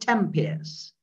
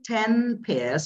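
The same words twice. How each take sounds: First: The n of ten blends into the following p. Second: The n of ten is said clearly and separately. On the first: "you say ten pairs" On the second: "instead of saying ten pairs"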